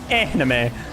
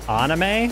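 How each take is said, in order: First: The first vowel sounds like 'an' in 'ant'. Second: The first vowel sounds like 'ah'. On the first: The speaker calls it right. "I'd be like Anne as in like ant" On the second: The speaker calls it wrong. "I would not agree with that"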